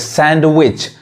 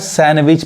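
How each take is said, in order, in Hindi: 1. d की आवाज़ साफ़ बोली जाती है। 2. d की आवाज़ साइलेंट रहती है। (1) "सैंडविच पढ़ेंगे तो गलत हो जाएगा" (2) "यानी क्या पढ़ाएगा सैंडविच पढ़ाएगा"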